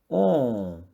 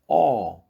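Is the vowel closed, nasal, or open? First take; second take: nasal; open. First: The vowel is said through the nose. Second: The vowel is said with an open mouth. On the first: "Agora os sons nasais"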